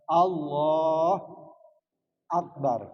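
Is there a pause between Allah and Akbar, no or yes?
yes. There is a break between the two words. The speaker calls it wrong. "tidak boleh berhenti antara Allah dan Akbar"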